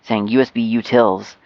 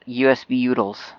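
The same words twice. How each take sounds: First: Utils is pronounced in the careful standard way. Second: Utils is pronounced in a relaxed, reduced way. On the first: It is the harder, standard way to say it. "It's just so much easier than saying" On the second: It is the easy, lazy way to say it. "It's just so lazy and beautiful"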